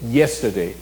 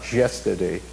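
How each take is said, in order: First: It begins with a consonant y glide. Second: It begins with a j-like consonant sound. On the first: This is how the word is really said. The speaker calls it right. "Na verdade, não é nem yesterday, nem yesterday, é yesterday. E o Y é uma consoante" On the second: This is how a Spanish speaker tends to say it. The speaker calls it wrong. "O falante de espanhol tem a, a tendência a falar yesterday"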